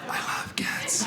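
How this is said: It is said in a whisper.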